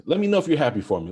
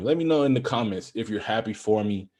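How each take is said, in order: First: Fast, high and loud, bursting with eagerness; excited plea. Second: Said in the usual way. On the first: Real, not acted. Host begging his viewers to share his joy, fast and excited. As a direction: rush it out like you can't wait.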